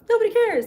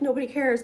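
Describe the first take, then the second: First: It is said in a happy tone. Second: It is said in a sad tone.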